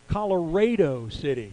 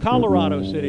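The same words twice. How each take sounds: First: It uses the local Texas town pronunciation. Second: It uses the Colorado state pronunciation. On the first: This is how Texans say the town's name. The speaker calls it right. "in Texas, you pronounce that town" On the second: This is how people in that state say it. The speaker calls it wrong. "That's how we pronounce the state"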